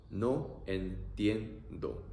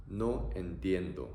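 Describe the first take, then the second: First: Very slow No entiendo. stretched; teacher modelling slowly; slow demo. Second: Said in the usual way. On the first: Shown as a demonstration.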